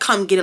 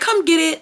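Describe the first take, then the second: First: It is said in an aggressive, hostile tone. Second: It is said in a polite, professional tone.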